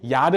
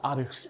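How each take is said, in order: First: The word starts with a 'ya' sound. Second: The word starts with a plain 'a' sound. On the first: The speaker calls it wrong. "야르 아니야" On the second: The speaker calls it right. "아르라고 읽는데요"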